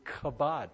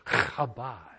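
First: It starts with a plain hard k sound. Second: It starts with a throaty, rasping sound.

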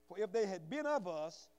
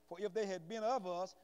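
No difference in how they are said.

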